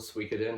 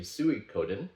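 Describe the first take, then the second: First: The name is said with English-style sounds. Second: The name is said with Japanese-style sounds. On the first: "however you want to pronounce it" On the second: "phonetically in Japanese it would be Suikoden"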